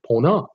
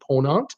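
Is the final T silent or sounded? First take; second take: Silent; Sounded. First: The final T is left silent. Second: The final T is pronounced.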